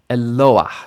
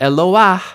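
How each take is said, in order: First: The stress is on the next-to-last syllable. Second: The stress is on the last syllable. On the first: The speaker calls it right. "So it moves to the penultimate position" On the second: The speaker calls it wrong. "not Eloah"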